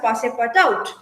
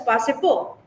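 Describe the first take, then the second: First: The name ends in a full 'out' sound. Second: The name ends in a silent-t 'oh' sound. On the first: It follows the spelling. "as he is spelled there" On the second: It follows the French pronunciation. "Because it's a French name, it can be pronounced as Pasipo"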